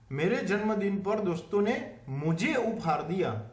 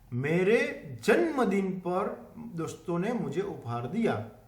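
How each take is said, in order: First: The stress is on mujhe. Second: The stress is on janmadin.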